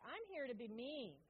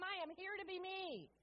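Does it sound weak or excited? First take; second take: weak; excited. First: It sounds weak and unenthusiastic. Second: It sounds excited and enthusiastic.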